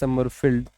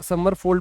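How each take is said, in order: First: The name ends with a 'field' sound. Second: The name ends with a 'fold' sound. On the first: This is the actual name. The speaker calls it right. "है ये समरफील्ड" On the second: This is how it was said during student days. The speaker calls it wrong. "बोलता हूं समरफोल्ड, मैं बोलता था जब मैं पढ़ता था"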